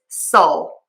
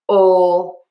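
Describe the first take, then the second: First: The vowel is a relaxed, unrounded schwa. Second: The vowel is said with rounded lips. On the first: The speaker calls it right. "with that schwa sound" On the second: The speaker calls it wrong. "instead of rounded lips to say ol"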